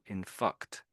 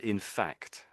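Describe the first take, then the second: First: The vowel in 'fact' sounds like 'cut'. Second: The vowel in 'fact' sounds like 'cat'. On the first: The speaker calls it wrong. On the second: The speaker calls it right.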